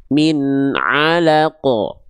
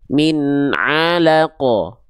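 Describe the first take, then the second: First: The ain is made with air through the nose. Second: The ain is made with air through the nose.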